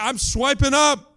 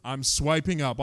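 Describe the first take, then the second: First: Higher, louder and slower, eager to sign up; hooked and thrilled to swipe up. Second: Said in the usual way. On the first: Retold or imitated. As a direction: sell the excitement of swiping up. Woman's retold line, eager retake.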